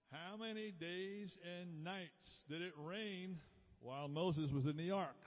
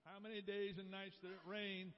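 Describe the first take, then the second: First: Measured, spaced-out quiz question, pitched up; drawn-out quizmaster delivery; slow question reading. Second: Said in the usual way. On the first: Real, not acted. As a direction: read the question out slowly, word by word. Quiz question read out, first time.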